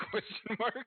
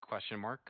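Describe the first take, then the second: First: High, laughing repeat; laughing question. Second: Said in the usual way. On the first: Real, not acted. Player repeating the odd question, high and laughing. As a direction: crack up while asking it, pitched way up.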